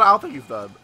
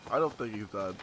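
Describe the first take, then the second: First: Said in the usual way. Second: Much lower and softer, under the breath; muttered. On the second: Real, not acted. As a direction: mutter it to yourself. Repeat muttered to self.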